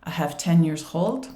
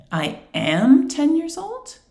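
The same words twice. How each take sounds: First: Said in the usual way. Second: "am" stretched and swept up high, questioning; high, slow query, leaning on "am"; questioning stress on AM. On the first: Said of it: "a student says". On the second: Shown as a demonstration. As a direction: flag the error with a long rising "am". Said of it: "use your intonation to highlight the error".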